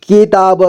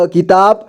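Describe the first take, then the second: First: किताब as कि-ता-ब; syllable by syllable. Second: Said in the usual way. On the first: Shown as a demonstration. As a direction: sound out किताब in three parts. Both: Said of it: "एक ही बार में पढ़ेंगे".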